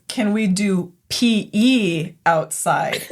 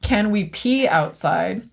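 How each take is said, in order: First: Slow, "P E" spelled out as two letters; "Can we do P E outside?" with "P E" drawn out as letters; correct version. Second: Slow "pee" said as one word, pee; "Can we pee outside?" with a plain long "pee"; misheard version. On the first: Teacher explaining what the kid really said, slow "P E". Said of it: "Turns out what he said is". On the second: Teacher retelling what she misheard, slow "pee". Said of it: "I do not think he said". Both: Retold or imitated.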